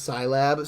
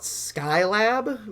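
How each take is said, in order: First: The first syllable sounds like 'sigh'. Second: The first syllable sounds like 'sky'. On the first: The speaker calls it right. "just a shortening of Science Lab" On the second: The speaker calls it wrong. "we always used to call it Skylab"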